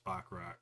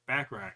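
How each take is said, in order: First: Bachrach said as "bock-rock"; mispronounced name. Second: Bachrach said as "back-rack"; corrected name. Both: Real, not acted. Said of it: "I keep saying his name weird".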